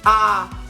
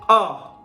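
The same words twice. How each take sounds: First: The voice sounds tight and pushed from the throat. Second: The voice sounds resonant, echoing and well supported. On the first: The speaker calls it wrong. "kalau nyanyi di tenggorokan" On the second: The speaker calls it right. "suaranya itu kayak gema, surround. Artinya kalian di support dari sini"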